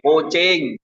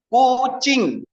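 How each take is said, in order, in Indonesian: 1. Suku kata terakhir memiliki vokal 'e'. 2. Suku kata terakhir memiliki vokal 'i' yang jelas.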